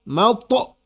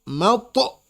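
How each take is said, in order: No difference in how they are said.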